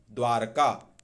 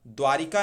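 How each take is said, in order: First: द्वारका as dwaar-kaa; correct, no i. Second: द्वारिका in three beats, dwaa-ri-kaa; wrong extra i. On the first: Teacher correcting students, द्वारका as dwaar-kaa. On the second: Teacher rejecting a form, द्वारिका with ri. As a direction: say द्वारिका with ri in the middle. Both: Shown as a demonstration. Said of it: "द्वारिका नहीं".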